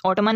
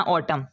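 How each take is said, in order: First: "ऑटमन" with a final n sounded; wrong pronunciation. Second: "ऑटम" ending on m, no n; silent n. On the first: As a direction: add the n at the end of "ऑटमन". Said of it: "नहीं पढ़ना". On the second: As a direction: drop the final n from "ऑटम". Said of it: "इसको पढ़ते हैं". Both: Shown as a demonstration.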